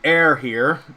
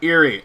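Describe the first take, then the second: First: The name begins with an 'air' sound. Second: The name begins with an 'ear' sound. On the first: "somebody told me it's actually pronounced ear, like, or air, like air" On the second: "that's how I pronounced it as a kid"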